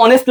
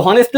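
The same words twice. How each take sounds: First: "অনেস্ট" starting straight on the o vowel; "অনেস্ট", vowel first with no h sound; silent H. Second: "হনেস্ট" with the H sounded at the start; "হনেস্ট", opening on a breathed h sound; wrong pronunciation with H. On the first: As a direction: drop the H in "অনেস্ট". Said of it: "অ দিয়ে হচ্ছে না?". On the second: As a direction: voice the first H in "হনেস্ট". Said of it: "এটা তুমি কি বলো?". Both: Shown as a demonstration.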